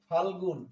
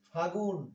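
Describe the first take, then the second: First: The l sound is pronounced before g. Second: The l sound is dropped before g.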